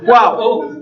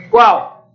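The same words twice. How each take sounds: First: Said in the usual way. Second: "Qual?" jumps much higher, then falls; high-pitched repeat. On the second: Shown as a demonstration. Teacher repeats the class's question, pitched far up.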